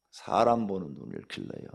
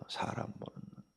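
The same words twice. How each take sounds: First: Said in the usual way. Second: 사람 보는 눈 breathed in a whisper; whispered echo. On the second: Shown as a demonstration. Preacher echoing his advice to the congregation, whispered. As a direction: drop to a whisper on 사람 보는 눈.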